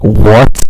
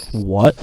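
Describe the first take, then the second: First: Loud, rising shocked what. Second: Said in the usual way. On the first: Retold or imitated. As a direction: blurt it out loud in disbelief. Friend's second, bigger reaction.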